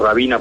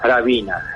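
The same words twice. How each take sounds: First: The name starts straight with the r sound. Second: A soft breathy h comes before the r. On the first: This is the simpler local way of saying it. "acá siempre decimos Rabina porque si no es más complicado" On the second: This is how it is said in the Czech Republic. "en República Checa sería Rabina, Rabina"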